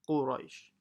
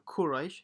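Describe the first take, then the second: First: It begins with a deep full-mouth q sound. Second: It begins with a light front k sound. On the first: The speaker calls it right. "it's qa" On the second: The speaker calls it wrong. "it's not a kaf, it's not Quraysh"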